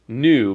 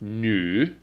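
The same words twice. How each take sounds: First: The vowel is a plain English oo sound. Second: The vowel is a fronted ü with protruding lips. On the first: The speaker calls it wrong. "it's not just new" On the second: The speaker calls it right. "but it's new. It's a very strange, like your lips kind of protrude quite a bit"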